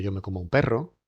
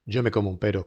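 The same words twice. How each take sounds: First: PERRO with a strongly trilled rr; long compound trill in PERRO; rolled double R. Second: PERO with one light tapped r; single tapped R. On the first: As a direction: say "perro" rolling the r. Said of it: "distinguimos entre la simple y la compuesta". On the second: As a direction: say "pero" with a quick single flick of the r. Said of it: "no es lo mismo decir". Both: Shown as a demonstration.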